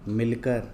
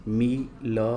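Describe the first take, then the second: First: Said in the usual way. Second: Drawn-out मी-ल-क-र; syllable by syllable. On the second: Shown as a demonstration. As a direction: sound out मिलकर letter by letter. Word broken up before blending.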